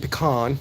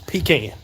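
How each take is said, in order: First: It is said the non-Southern way. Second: It is said the Southern way.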